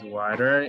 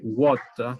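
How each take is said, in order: First: It is said in an American English accent. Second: It is said in a British English accent. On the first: "decimos water en inglés americano" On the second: "water en inglés eh, británico"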